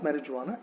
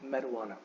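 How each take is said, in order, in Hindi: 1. इस शब्द में 'j' की ध्वनि है। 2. इस शब्द में 'j' की ध्वनि नहीं है। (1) "it is not मैरिजुआना" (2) "the जे is silent"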